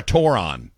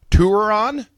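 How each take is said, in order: First: "toron" said with a TORE start, rhyming with moron. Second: "touron" said with a TOUR start, tour-on; "touron" with an oo sound, as in tour. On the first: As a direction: say "toron" with an open or sound. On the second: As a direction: stress the first part of "touron", rhyming it with "tour". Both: Shown as a demonstration. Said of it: "It's either pronounced".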